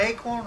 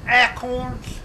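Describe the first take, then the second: First: Said in the usual way. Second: "acorns" opened with a short a, "ACK-orns"; short-a "acorns", drawn out; folksy pronunciation of acorns. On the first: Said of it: "it's not acorn". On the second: Shown as a demonstration. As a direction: say "acorns" slowly as "ACK-corns". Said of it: "it's not acorn or arrow".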